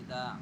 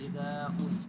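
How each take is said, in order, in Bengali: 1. শব্দটি সাধারণভাবে শেষ হয়, শেষে কোনো 'উন' নেই। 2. শব্দের শেষে একটা বাড়তি 'উন' আছে।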